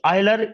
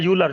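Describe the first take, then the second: First: The name begins with an 'oy' sound. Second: The name begins with a 'yoo' sound. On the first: "दो अलग अलग pronunciation हो सकती है" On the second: "दो अलग अलग प्रोनाउंसिएशन हो सकती है"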